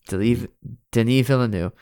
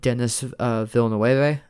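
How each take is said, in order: First: The name is pronounced like a French name. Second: The name is pronounced like a Spanish name. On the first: The speaker calls it right. "Canadian French" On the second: The speaker calls it wrong. "I am so sorry for mispronouncing that name"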